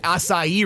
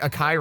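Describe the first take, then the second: First: The word acai is pronounced in the standard way. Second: The word acai is pronounced in a nonstandard way. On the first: A coworker is pointedly correcting the customer. "it's actually called the strawberry acai refresher" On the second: A customer is ordering without knowing the proper name. "Even if somebody's mispronouncing something"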